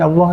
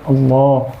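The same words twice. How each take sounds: First: The L is pronounced light, not thick. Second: The L is pronounced heavy and thick. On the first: The speaker calls it wrong. "sahabat kita macam orang India ni dia lain Allah" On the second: The speaker calls it right. "kita boleh sebut orang Melayu, ha, boleh sebut Allah"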